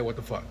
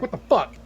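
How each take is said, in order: First: Quoted confused listener. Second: Mock confused listener. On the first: Retold or imitated. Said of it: "if you said". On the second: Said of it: "Others is like".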